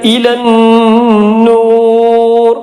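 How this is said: It stops on the word, dropping the final vowel. "വഖഫ് ചെയ്തു"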